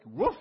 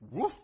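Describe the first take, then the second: First: High, loud imitated woof; loud dog bark. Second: Short, mild imitated woof; a small, half-hearted dog bark. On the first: Dog answers the butcher. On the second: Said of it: "the dog replies".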